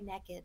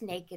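First: It is said with a Southern US pronunciation. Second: It is said with a standard US pronunciation.

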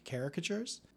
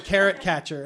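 First: The word is said the standard way. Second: The word sounds like carrot catcher. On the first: The speaker calls it right. "You got it right" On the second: The speaker calls it wrong. "I used to pronounce it caricature"

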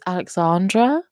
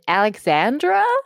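First: The stressed vowel is a long 'ah' as in 'car'. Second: The stressed vowel is a short 'a' as in 'and'. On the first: The speaker calls it right. "no, it's Alexandra. it's an R" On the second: The speaker calls it wrong. "made me feel sick if someone said Alexandra"

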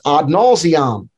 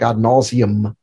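First: It is pronounced with Latin-style vowels. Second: It is pronounced with English-style vowels.

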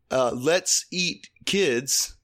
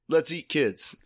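First: There is a pause after 'eat'. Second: There is no pause after 'eat'. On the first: The speaker is inviting the kids to eat. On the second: The kids are the food.

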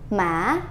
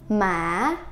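First: The vowel is kept fairly short. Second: The vowel is drawn out a little longer.

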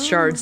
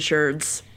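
First: The vowel sounds like the one in car. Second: The vowel sounds like the one in her. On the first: This is the form used outside America. "the rest of the world says shards" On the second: This is the form used in America. "I've heard Americans say sherds"

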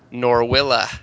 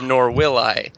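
First: 'Will I' is blended to sound like 'Willa'. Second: 'Will' and 'I' are said as separate words. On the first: The line becomes a pun on the name. "I'm going to do this in the way that it should be" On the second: The line is said without the pun. "instead of"

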